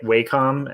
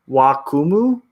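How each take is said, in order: First: Said the American way, ending with a com sound. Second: Said the Japanese way, ending with a mu sound. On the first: "the American uh, pronunciation probably is like Wacom" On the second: "if you're technically gonna pronounce Wacom in the Japanese way"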